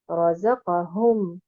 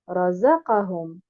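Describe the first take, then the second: First: The stress falls on the za and hum syllables. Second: The stress falls on the za syllable only. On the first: "en plaçant un nabr sur harakat al-zay et harakat al-ha" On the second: "en plaçant uniquement un nabr sur harakat al-zay"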